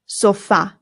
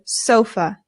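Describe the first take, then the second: First: The stress is on the second syllable. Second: The stress is on the first syllable. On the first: This is how it is said in Spanish. "in Spanish, the stress goes on the A" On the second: This is how it is said in English. "In English, we put the stress on the O and we say sofa"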